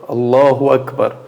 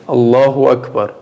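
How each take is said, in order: The two takes are said the same way.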